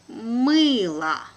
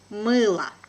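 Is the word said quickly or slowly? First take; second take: slowly; quickly. First: The word is said slowly. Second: The word is said quickly. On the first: "first time will be slow" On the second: "second time will be quickly, like a native speaker"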